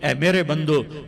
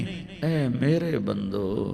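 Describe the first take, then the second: First: It is said in a plain, stern tone. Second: It is said in a warm, loving tone. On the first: The speaker calls it wrong. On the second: The speaker calls it right.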